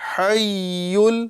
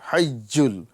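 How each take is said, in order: First: The doubled consonant sounds soft, like y. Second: The doubled consonant sounds harsh, like j. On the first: The speaker calls it right. "जीम वाली आवाज़ पैदा नहीं करेंगे, बल्कि" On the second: The speaker calls it wrong. "इसमें जीम वाली आवाज़ पैदा होती है"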